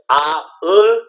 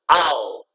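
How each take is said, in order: First: It is said slowly as two separate parts. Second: It is said quickly as one single sound. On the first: "it sounds like two sounds" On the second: "say it fast and make it one sound"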